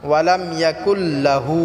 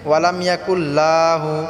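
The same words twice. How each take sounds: First: The la syllable is kept short. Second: The la syllable is stretched long. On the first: The speaker calls it right. "এখানে লাটা টান হবে না" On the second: The speaker calls it wrong. "লাহু লাটা টান করে"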